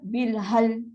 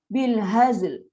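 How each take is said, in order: First: The word ends with an l sound only. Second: The word ends with both z and l sounds. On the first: The speaker calls it wrong. "Zai dah hilang" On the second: The speaker calls it right. "Haz untuk Zain, l untuk lam"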